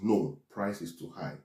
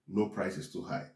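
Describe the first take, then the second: First: There is a pause after 'no'. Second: There is no pause after 'no'.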